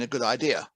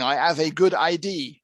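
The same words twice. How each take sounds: First: Said in the usual way. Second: "idea" said as "I D", with the final vowel dropped; French mispronunciation. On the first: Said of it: "when they mean a good idea". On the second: Retold or imitated. A French speaker says he has a good idea, "idea" clipped to "I D". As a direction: say "idea" as two letters, "I D". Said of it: "the French saying".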